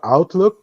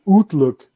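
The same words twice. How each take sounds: First: The first syllable sounds like 'out'. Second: The first syllable sounds like 'oot'. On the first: The speaker calls it right. "instead of Outlook" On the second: The speaker calls it wrong. "it's not oot"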